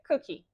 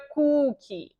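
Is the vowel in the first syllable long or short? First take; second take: short; long. First: The first vowel is a short oo sound. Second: The first vowel is a long oo sound. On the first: The speaker calls it right. "um som de vogal de U mais curto" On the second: The speaker calls it wrong. "Eu estava fazendo um U muito alongado"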